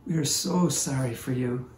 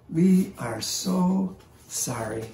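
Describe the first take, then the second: First: Said in the usual way. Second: Slow, higher, gentle condolence; tender sympathy. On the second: Retold or imitated. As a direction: kneel beside her and mean every word, slowly. Old man comforting crying woman.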